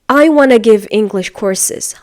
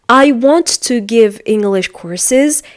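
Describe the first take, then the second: First: The words blend together into a reduced 'wanna'. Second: Each word is pronounced fully and separately. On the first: "Instead of that, he or she is going to say" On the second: "or for example"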